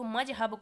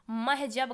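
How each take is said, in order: First: Said in the usual way. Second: महजब as "mah-jab", h before j; slowly transpose the consonants in महजब; swapped sounds. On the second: Shown as a demonstration. Teacher showing a child's slip, महजब with swapped consonants. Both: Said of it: "मजहब को महजब कह रहा है".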